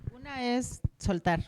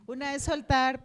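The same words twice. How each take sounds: First: Said in the usual way. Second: Saying soltar through a real laugh. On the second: Real, not acted. Laughs while repeating.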